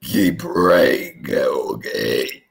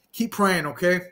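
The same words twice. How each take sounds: First: Much lower, slow solemn blessing; deep preacher voice. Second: Said in the usual way. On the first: Pretend. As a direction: intone it like a grave preacher. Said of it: "I don't know what I just said there". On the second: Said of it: "I said".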